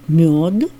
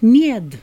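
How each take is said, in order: First: The stressed vowel sounds like 'o'. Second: The stressed vowel sounds like 'e'. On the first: This is the later way of saying it. "а потом стали говорить «мед»" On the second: This is the older way of saying it. "раньше говорилось «мед»"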